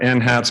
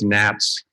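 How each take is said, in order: First: It is said as 'en-hats' with the H. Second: It is said as one syllable, 'nats'. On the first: The speaker calls it wrong. "I call it N HATS, but that's wrong" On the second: The speaker calls it right. "It's NATS"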